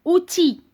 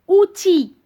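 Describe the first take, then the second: No difference in how they are said.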